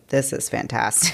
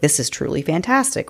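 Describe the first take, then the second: First: It sounds sarcastic and mocking. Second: It sounds sincere and genuinely impressed.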